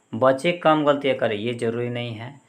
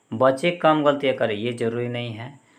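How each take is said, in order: The two takes are said the same way.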